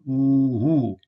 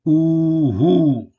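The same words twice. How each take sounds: First: Ooh-hoo, long oo with breathy English h; repeat owl word. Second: Ooh-hoo, louder, long oo, falling; owl sound word. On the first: Teacher repeating the owl word for learners. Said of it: "the H is the English sound". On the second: Teacher demonstrating the Michif word for owl, hooted. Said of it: "that is the oo sound". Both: Shown as a demonstration.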